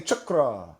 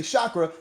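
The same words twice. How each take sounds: First: Chakra with a hard CH start; chakra opening on "chuk", as in chuckle; corrected pronunciation. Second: Chakra said the everyday way, "shah-kra"; common pronunciation. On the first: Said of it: "the way that they pronounce it". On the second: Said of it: "have been mispronounced". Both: Shown as a demonstration.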